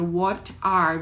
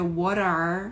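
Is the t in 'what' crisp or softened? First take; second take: crisp; softened. First: The t in what is crisp and separate. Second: The t in what softens and links onward. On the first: "quando emenda uma palavra na outra"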